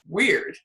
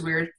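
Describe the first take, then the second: First: The word is said with dramatic, charged intonation. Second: The word is said flatly, with no energy. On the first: The thing is judged as bad or off-putting. The speaker calls it wrong. "there's this energy of like, like, weird" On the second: The thing is only noted as unusual, without judgment. The speaker calls it right. "there's no energy on it"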